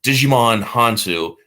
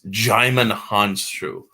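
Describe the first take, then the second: First: The first name sounds like 'Digimon'. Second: The first name sounds like 'Jaimon'. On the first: The speaker calls it wrong. "instead of Digimon Hansu" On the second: The speaker calls it right. "it's Jaimon Hansu"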